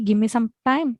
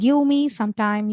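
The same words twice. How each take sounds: First: Give me is run together as gimme. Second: Give me is said as two full words. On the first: "you can say" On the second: "instead of saying"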